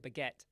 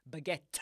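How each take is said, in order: First: BAGUETTE as "buh-geh", no final t; unreleased ending on BAGUETTE; t left off. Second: BAGUETTE with an explosive, spat-out t; hard popped t ending BAGUETTE; forced final t. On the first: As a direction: drop the t at the end of BAGUETTE. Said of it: "without the t". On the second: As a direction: force the t of BAGUETTE out like launching a missile. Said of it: "like you're forcing the missile". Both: Shown as a demonstration.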